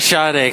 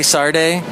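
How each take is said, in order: First: The name is said without an R sound. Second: The name is said with an R sound. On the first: This is how the name is said where the interviewer grew up. "I say Sade because I grew up in Ventura" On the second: This is how the interviewer heard the guest say it. "Is there an R in there?"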